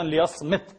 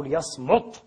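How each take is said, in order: First: ليصمت with an i, as liyasmit; ليصمت pronounced liyasmit with kasra. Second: ليصمت with a clear u, as liyasmut; ليصمت pronounced liyasmut with damma. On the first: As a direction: say ليصمت ending in -smit. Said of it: "وتضبط أيضًا". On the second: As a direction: say ليصمت ending in -smut. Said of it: "وتضبط أيضًا ليصمت". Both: Shown as a demonstration.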